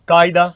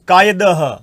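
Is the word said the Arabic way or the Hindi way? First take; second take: Hindi; Arabic. First: The word is said with its Hindi pronunciation. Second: The word is said with its Arabic pronunciation. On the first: "और हम क्या बोलते हैं?" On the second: "इसी तरह से देखिए"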